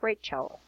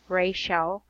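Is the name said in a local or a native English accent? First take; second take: native English; local. First: The name is said in native English accent. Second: The name is said in the local accent. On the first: "but for them, it's Rachel" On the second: "for us, we pronounce the word Rachel"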